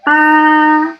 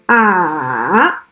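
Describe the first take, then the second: First: The pitch stays high and level. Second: The pitch dips down, then rises a little. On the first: "horizontal, like this" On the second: "The third tone is a falling, rising tone"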